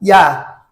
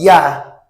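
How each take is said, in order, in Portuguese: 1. É dita com sotaque do espanhol castelhano. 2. É dita com sotaque do espanhol castelhano.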